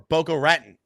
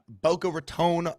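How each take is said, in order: First: The name is said with an altered pronunciation. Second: The name is said the standard way. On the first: The speaker calls it wrong. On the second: The speaker calls it right.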